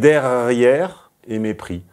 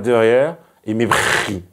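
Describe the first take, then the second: First: The r sounds are clear and not affricated. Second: The r sounds are swallowed and affricated. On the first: The speaker calls it right. "C'est derrière et mépris" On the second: The speaker calls it wrong. "on ne peut pas manger les airs de derrière et affriquer le mépris"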